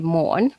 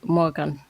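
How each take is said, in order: First: The g in the second syllable is silent. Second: The g in the second syllable is pronounced. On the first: "Danish will be morn, You don't actually say the G in Danish" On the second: "Swedish will be Morgan. I did a hard G"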